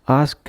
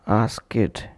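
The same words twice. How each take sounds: First: The word ends in a d sound. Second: The word ends in an id sound. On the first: "and not as d" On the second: "or as id"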